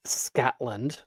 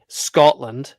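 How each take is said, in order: First: "Scotland" slipped out as "Scatland", with an "a"; mistaken pronunciation. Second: "Scotland" said louder with a round "o"; corrected pronunciation. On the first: Vlogger pretending to slip on "Scotland", mispronounced. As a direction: say "Scotland" with the wrong "a" vowel. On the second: Vlogger correcting own slip on "Scotland", emphatic. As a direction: correct it firmly to "Scot-lund" for "Scotland". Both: Shown as a demonstration. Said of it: "excuse me".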